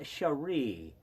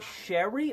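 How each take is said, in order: First: The stress is on the last syllable. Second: The stress is on the first syllable. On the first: "or re?" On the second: "Emphasis on she"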